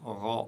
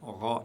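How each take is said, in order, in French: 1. La consonne se prononce lourde et profonde. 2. La consonne se prononce lourde et profonde.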